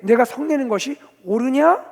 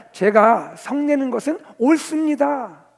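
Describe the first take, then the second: First: Loud, raised question, rising at 옳으냐; challenging question. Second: Loud, slow, high assertion; defiant answer. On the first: Preacher as God questioning the prophet, challengingly. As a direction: question firmly, pitch lifted at the end. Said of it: "하나님은 요나에게". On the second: Preacher as prophet answering God, defiantly. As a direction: declare it firmly, falling on 옳습니다. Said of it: "요나가 하나님께 답을 합니다". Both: Acted.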